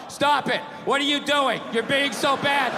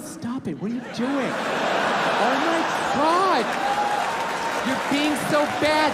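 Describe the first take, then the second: First: It is read out in a flat, dull tone. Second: It is said in a teasing, playful tone.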